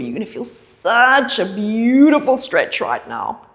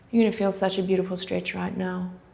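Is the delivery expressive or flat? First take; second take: expressive; flat. First: It is said with lively, feeling-filled expression. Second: It is said in a flat, unexpressive way. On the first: The voice conveys what the stretch feels like. The speaker calls it right. "because that's what it feels like" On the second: The voice does not convey what the stretch feels like. The speaker calls it wrong. "Doesn't feel like that"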